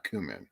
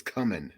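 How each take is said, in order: First: "cumin" said as COO-min; long "oo" in the first syllable of "cumin". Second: "cumin" said as CUM-in; short "uh" in the first syllable of "cumin". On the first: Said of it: "not cumin". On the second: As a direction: say "cumin" to start like "come". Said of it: "looks like it says cumin". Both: Shown as a demonstration.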